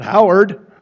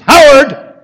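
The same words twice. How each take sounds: First: The name is called more softly. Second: The name is called louder and more urgently.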